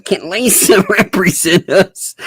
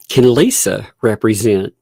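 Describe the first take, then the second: First: Mock filing voice. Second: Said in the usual way. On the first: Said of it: "I'm imagining a pro se filing being like".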